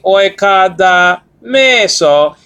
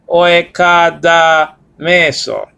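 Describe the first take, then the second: First: The pitch rises on the syllable 'me'. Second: The pitch falls on the syllable 'me'. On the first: "I rose the pronunciation because there's an acute marker" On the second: "a fall in accent"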